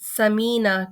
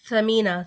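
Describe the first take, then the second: First: The first consonant is a plain 's' sound. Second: The first consonant is a soft 'th' sound. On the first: It means fat. The speaker calls it wrong. "सा के बजाय सीन के साथ पढ़ा जाए" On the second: It means something precious. The speaker calls it right. "सा के साथ जो तीन नुक्ते वाला है ना, उसको उसके साथ पढ़ा है"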